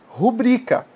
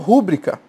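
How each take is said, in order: First: The stress is on the second syllable. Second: The stress is on the first syllable. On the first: The speaker calls it right. "A sílaba tônica dessa palavra é bri" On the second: The speaker calls it wrong. "algumas pessoas falam rúbrica. Falaram incorretamente"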